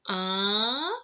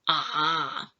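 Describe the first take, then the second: First: The pitch rises upward. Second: The pitch stays very low. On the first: "For the second tone is like going uphill" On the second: "the pitch for the third tone is very low"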